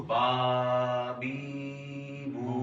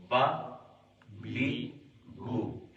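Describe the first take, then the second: First: با بی بو drawn out long in a sing-song chant; wrong stretched reading. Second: با بی بو clipped short, one beat each, no stretching; short correct reading. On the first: Teacher showing students the mistake of dragging syllables, sing-song stretched. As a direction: stretch each of با بی بو like a little song, the way not to read them. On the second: Teacher showing students the right way after the stretched one, short and crisp. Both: Shown as a demonstration. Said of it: "کھینچ کے نہیں پڑھنا".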